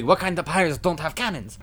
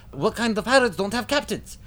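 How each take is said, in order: First: High-pitched goofy stooge voice; comic stooge echo. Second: Very high, squealing stooge echo; Curly, comic stooge. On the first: Larry turning to Curly in disbelief, high stooge voice. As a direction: echo the outrage as a cartoonish sidekick. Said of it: "Larry looks over at Curly". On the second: Curly turning to Mo, very high stooge squeal. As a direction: garble the echo in a much higher goofy voice. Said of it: "Curly looks to Mo". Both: Acted.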